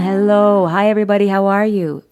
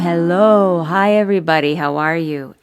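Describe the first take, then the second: First: The voice sounds open, round and resonant. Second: The voice sounds tight and constricted. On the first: The speaker calls it right. "it just feels nice and resonant" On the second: The speaker calls it wrong. "I go back to that tight thing"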